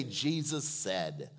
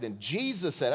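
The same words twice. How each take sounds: First: "Jesus said" drawn out slowly and lower for the crowd to echo; slow call-and-response. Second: Said in the usual way. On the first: Shown as a demonstration. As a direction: lead the congregation, say it slowly. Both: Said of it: "everyone say".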